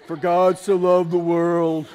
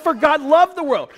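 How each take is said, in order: First: It is said slowly and gloomily, like a dirge. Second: It is said in a bright, happy tone.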